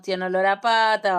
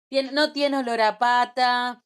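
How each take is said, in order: First: Fed-up complaint. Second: Lovestruck gushing. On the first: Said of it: "pasa el año y decimos". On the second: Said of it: "Es como cuando decimos". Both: Retold or imitated.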